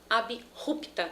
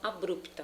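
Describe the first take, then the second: First: The b is kept apart from the r. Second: The b is joined to the r. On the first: The speaker calls it right. "de forma abrupta" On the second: The speaker calls it wrong. "e não abrupta"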